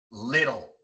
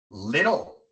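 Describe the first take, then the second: Both takes have the same delivery.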